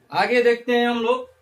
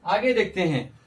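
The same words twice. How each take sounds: First: Louder repeat. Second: Said in the usual way. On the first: Shown as a demonstration.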